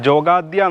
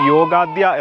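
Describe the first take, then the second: First: The name begins with a J sound. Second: The name begins with a Y sound. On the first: This is how the local people say it. "ഇവിടെയുള്ളവർ ഉച്ചരിക്കുന്നത്" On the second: This is the proper form of the name. "പക്ഷേ അത് യോഗാദ്യ എന്നാണ്"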